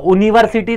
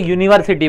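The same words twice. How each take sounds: First: The word starts with a plain vowel sound. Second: The word starts with a y sound. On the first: The speaker calls it wrong. "यूनिवर्सिटी तो बोलते नहीं हो" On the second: The speaker calls it right. "यूनिवर्सिटी का sound आता है य से"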